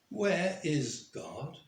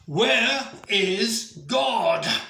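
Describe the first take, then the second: First: It is said a little more forcefully. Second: It is said loudly, in an irate voice.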